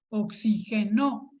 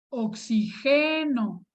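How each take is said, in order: First: The stress is on the last syllable. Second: The stress is on the third syllable. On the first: It is a past-tense verb form. "es una palabra aguda" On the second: It is a present-tense verb form. "es una palabra grave"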